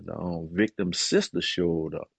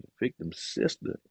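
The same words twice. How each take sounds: First: Said in the usual way. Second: Breathless whispered echo, caught off guard; a hushed, disbelieving question; stunned whisper. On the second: Retold or imitated. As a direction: repeat it under your breath in disbelief. Stunned echo of lawyer's news.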